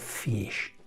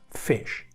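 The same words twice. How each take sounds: First: The vowel is a long, clear 'ee' sound. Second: The vowel is a short, relaxed 'i' sound. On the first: The speaker calls it wrong. "No digo fish" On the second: The speaker calls it right. "Sino digo bit, fish"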